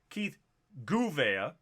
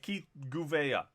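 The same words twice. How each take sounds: First: One syllable of the surname is clearly stressed. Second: All syllables of the surname are stressed evenly. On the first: "So it could be" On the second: "they don't have anything emphasized, so it's like"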